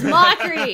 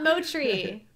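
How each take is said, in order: First: Loud "mockery" with a hard k sound; "mockery" as MOCK-ree, through a laugh; correct pronunciation. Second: "motry" as MOH-tree, drawn out slowly; mistaken pronunciation. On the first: Host correcting themselves on guest's name, correct pronunciation. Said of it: "not motry". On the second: Host admitting the name they assumed, mistaken pronunciation. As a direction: say "motry" with a t sound replacing the k. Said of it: "What I thought it was". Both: Shown as a demonstration.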